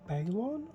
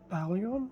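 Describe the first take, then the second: First: No extra vowel sound follows the L. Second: An extra 'ee' sound follows the L. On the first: The speaker calls it right. "I believe it's actually supposed to be pronounced Balon" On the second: The speaker calls it wrong. "I pronounce it as Balion, not realizing the I doesn't exist after the L"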